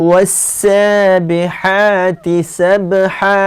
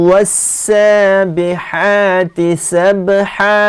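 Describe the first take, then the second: Both takes have the same delivery.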